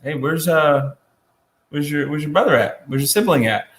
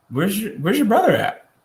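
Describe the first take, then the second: First: A light touch of a suspicious parent; mild parental check-in, half-teasing; parent scolding. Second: High, probing question from above; God asking. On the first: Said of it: "our parents go". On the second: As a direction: ask it like you already know. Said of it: "God asks him, he says". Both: Retold or imitated.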